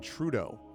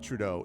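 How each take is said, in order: First: The stress is on the first syllable. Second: The stress is on the second syllable. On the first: This is how Canadians say the name. "emphasis on the first syllable of his last name" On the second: This is how Americans say the name. "the Americanization of it"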